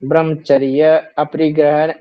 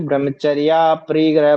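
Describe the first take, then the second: First: The two words are said separately, keeping 'a'. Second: The two words are joined with a long 'aa'. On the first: The speaker calls it wrong. "ऐसे नहीं बोलेंगे" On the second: The speaker calls it right. "ब्रह्मचर्या परिग्रह बोलना"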